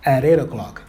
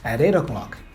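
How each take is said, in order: First: The t sounds are quick flaps linking the words. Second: The t sounds are quick flaps linking the words.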